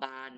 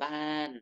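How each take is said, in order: First: The syllable is said on a mid tone. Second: The syllable is said on a falling tone. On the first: "บออานอบาน" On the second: "ไม้โทบ้าน"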